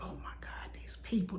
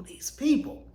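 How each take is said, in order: First: Breathy, near-silent retold sob of despair; broken down crying. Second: "these people" whispered, rising high on "people"; crying whisper. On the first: Retelling the weekend of fear, a soft tearful whisper. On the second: Retold or imitated. Fearing breast cancer, a whispered tearful "these people". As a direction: repeat "these people" as a choked, whispered plea. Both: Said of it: "I just broke down crying".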